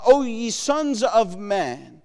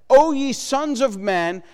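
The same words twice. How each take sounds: First: Slow scripture read. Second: Declaimed reading. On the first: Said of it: "He says, uh". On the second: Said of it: "Look at what he says". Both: Shown as a demonstration.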